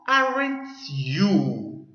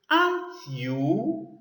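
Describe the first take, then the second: First: The word 'aren't' does not sound like 'ant'. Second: The word 'aren't' sounds like 'ant'. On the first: The speaker calls it wrong. "It is not aren't you" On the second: The speaker calls it right. "has the same pronunciation with ant"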